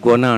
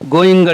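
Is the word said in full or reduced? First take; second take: reduced; full. First: The word is reduced and run together quickly. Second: The word is said in full, two clear syllables. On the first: This is how Americans say it. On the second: This is how we say it.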